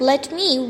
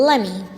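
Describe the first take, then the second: First: Both words are said fully and separately. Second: The words blend into one short reduced word. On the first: The speaker calls it wrong. "instead of let me" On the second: The speaker calls it right. "we can use let me"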